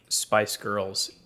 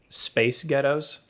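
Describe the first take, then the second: First: It is said in a plain accent. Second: It is said in a Scottish accent.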